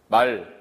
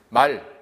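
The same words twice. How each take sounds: First: The word is said on a plain pitch. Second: The word is said on a high pitch. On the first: It means speech. "보통 하는 말이에요" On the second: It means a horse. "거성어로 말하면 이건 타는 말이에요"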